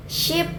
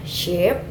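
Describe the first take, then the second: First: SHEEP said short and high, like "ship"; short vowel. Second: SHEEP with a drawn-out ee; long vowel. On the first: Demonstrating different pronunciations to learners, "sheep" with a short vowel. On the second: Demonstrating different pronunciations to learners, "sheep" with a long vowel. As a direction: stretch the vowel in "sheep" at usual pitch. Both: Shown as a demonstration. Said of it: "different pronunciation make the different meaning".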